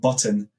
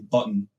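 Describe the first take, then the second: First: The middle T is clearly pronounced. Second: The middle T is dropped, not pronounced. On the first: "instead of saying button" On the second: "I have a tendency not to pronounce T's"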